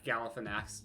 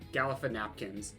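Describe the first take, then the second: First: The name ends with the sounds 'nakis'. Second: The name ends with the sounds 'napkins'.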